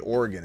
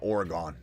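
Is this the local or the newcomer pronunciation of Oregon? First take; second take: local; newcomer. First: It is said the way native Oregonians pronounce it. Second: It is said the way newcomers to Oregon pronounce it. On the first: The speaker is a native of the state. The speaker calls it right. "you say Oregon" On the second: The speaker moved to the state from elsewhere. The speaker calls it wrong. "and not Oregon"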